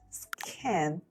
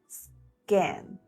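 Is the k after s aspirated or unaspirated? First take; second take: aspirated; unaspirated. First: The k has a puff of air. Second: The k has no puff of air. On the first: The speaker calls it wrong. "not scan" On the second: The speaker calls it right. "but scan"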